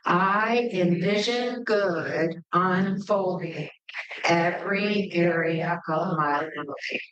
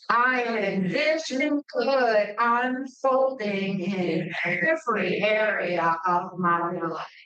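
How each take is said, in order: First: It is said in a plain, ordinary way. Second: It is said with strong, heartfelt conviction.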